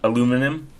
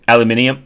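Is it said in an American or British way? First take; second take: American; British. First: It is said the American way. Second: It is said the British way.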